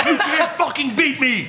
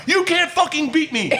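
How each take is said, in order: First: High, laughing yell of triumph; taunting yell. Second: Even higher triumphant yell; taunting yell. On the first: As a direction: crow it at the beaten rival. Bar drinking contest taunt. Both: Retold or imitated.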